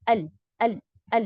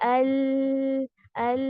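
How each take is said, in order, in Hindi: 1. L की आवाज़ अचानक और जल्दी काट दी जाती है। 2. L की आवाज़ को बहुत देर तक खींचा जाता है। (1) "जल्दी से अल अल अल इस तरीके से नहीं ... शिद्दा की सिफत इसमें आ गई" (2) "रिखावा भी नहीं करना, अल अल ऐसे भी नहीं करना"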